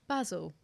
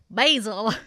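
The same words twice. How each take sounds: First: It is said in a British English way. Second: It is said in an American English way. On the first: "it now comes up with the English pronunciation" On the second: "And the American"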